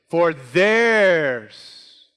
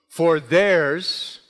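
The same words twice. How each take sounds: First: "theirs" stretched long and loud; stress on THEIRS. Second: Said in the usual way. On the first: Shown as a demonstration. Preacher demonstrates the emphasis in the verse, "theirs" loud and drawn out. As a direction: lean hard on "theirs" and hold it. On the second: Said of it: "Then he made this statement".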